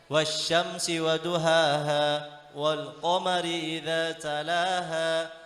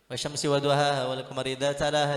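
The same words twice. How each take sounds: First: It is recited slowly with every letter clear. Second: It is recited quickly, running the words together. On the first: The speaker calls it right. "minimal begini bacanya" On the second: The speaker calls it wrong. "tidak boleh"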